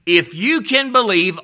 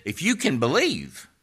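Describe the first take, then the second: First: "you" hit hard, loud and high, in "if you can believe"; stress on you. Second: Said in the usual way. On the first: Shown as a demonstration. Preacher turning the Lord's words on hearers, stressing "you". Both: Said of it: "what the Lord said".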